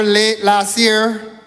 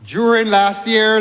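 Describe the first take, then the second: First: "late last year" slowed right down, each word weighted; pointed correction. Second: Said in the usual way. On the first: Shown as a demonstration.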